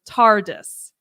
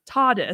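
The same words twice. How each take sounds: First: The R after the first vowel is pronounced. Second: The R after the first vowel is silent. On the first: This is how the new actor says it. "he pronounces the R in TARDIS, so he goes TARDIS" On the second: This is how viewers are used to hearing it. "what we're used to hearing as TARDIS"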